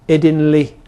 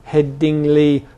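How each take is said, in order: First: The middle syllable ends in an 'in' sound. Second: The middle syllable ends in an 'ing' sound.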